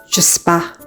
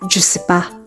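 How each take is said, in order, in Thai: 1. คำว่า ne ถูกละไป 2. คำว่า ne ถูกละไป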